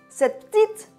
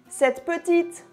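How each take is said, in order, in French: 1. Le E de « petite » ne se prononce pas. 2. Le E de « petite » est prononcé. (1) "Ça ferait trois sons de consonnes" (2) "on dit cette petite"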